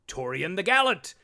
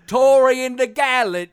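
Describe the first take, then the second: First: It is said in an ordinary speaking voice. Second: It is said in a grand, put-on herald voice.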